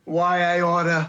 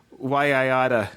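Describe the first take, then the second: First: Slow, drawn-out New York tough guy; New York accent. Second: A hint of New York tough guy; mock New York threat, why I oughta; New York accent. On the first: Pretend. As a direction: lean into the New York snarl. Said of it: "give me a". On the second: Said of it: "I love that New York accent".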